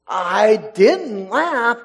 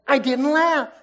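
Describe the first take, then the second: First: Plea of innocence. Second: High-pitched, quick little denial; plea of innocence. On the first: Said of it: "her plea of innocence". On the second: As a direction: protest your innocence, pitched well up. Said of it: "She's trying". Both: Acted.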